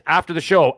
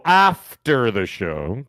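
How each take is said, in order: First: Said in the usual way. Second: "after" stretched out very slowly; drawn-out emphasis. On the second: Real, not acted. Host telling viewers when to watch his review, "after" drawn out slowly. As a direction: stretch "after" long, then finish "the show".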